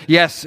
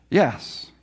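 First: Yes said louder and higher, firmly; a firm, certain Yes; emphatic yes. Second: Said in the usual way. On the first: Retold or imitated. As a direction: Yes pressed out with conviction.

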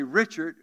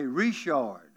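First: Said in the usual way. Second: Richard said the French way, "Ree-shar"; Cajun Richard. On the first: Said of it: "You say Richard". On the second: Shown as a demonstration. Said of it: "we say Richard".

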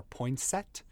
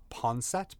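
First: Poinsett as poyn-SET; English-style vowel. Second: Poinsett as pon-SET; French-style vowel. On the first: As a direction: say Poinsett with "poyn" for the first syllable. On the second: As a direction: say Poinsett with "pon" for the first syllable. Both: Shown as a demonstration. Giving both pronunciations of the surname.

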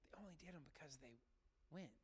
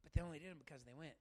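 First: "They only did them because they went" dropped much softer, almost under the breath; softer repeat. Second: Said in the usual way. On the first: Real, not acted.

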